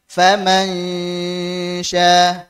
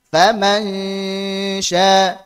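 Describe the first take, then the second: The two takes are said the same way.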